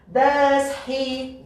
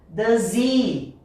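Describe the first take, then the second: First: The h is clearly pronounced, each word separate. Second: The h is dropped, linking into a z sound. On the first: It sounds like careful reading. "ler bem bonito" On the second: This is how a native speaker says it. "o som do H vai sumir"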